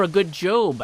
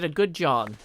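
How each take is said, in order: First: "Job" with a long o, like "Jobe"; "Job" as a name. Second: "job" with a short open vowel, like the word for work; everyday "job". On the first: Streamer trying the other reading, "Job" with long o. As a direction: say "Job" to rhyme with robe. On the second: Streamer reading a viewer's compliment, "job" with short open vowel. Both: Shown as a demonstration. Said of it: "or a good Job".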